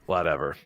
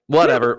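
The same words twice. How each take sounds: First: Low, soft, dismissive whatever; brushing off a laughing friend, muttered; muttered dismissal. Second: Dismissive whatever said out loud; brushing off a laughing friend, said louder; louder dismissal. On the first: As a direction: mutter it under your breath. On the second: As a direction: toss it off louder, annoyed. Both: Real, not acted.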